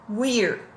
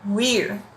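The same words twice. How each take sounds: First: The two words are joined into one. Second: The two words are joined into one.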